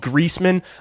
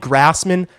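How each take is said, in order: First: The first syllable sounds like 'grease'. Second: The first syllable sounds like 'grass'. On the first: "I might care about that one" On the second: "If you call me Grassman, I don't care"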